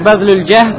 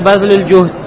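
First: The second word has an 'a' vowel after 'j'. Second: The second word has a 'u' vowel after 'j'. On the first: "можно сказать «бадлюль джахд»" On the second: "а можно «бадлюль джухд»"

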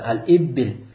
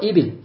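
First: The b sound is held long and doubled. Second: The b sound is short and single. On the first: The word means clouds. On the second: The word means camels.

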